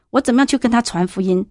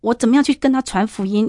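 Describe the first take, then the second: First: Same question, rushed and pressing; quicker repeat. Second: Said in the usual way. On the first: Retold or imitated. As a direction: hurry the question out, at a loss. Repeats question, more urgent.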